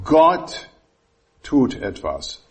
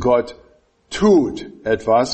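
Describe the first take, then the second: First: The stress falls on the word Gott. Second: The stress falls on the word tut. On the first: The focus is on who acts. "ich betone dieses Wort" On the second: The focus is on the acting itself. "Bei dem nächsten Punkt wird es"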